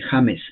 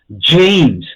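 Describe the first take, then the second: First: The name is read with Spanish sounds. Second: The name is said with English sounds. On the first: The speaker calls it wrong. "pero ese es en español" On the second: The speaker calls it right. "Pero se pronuncia James"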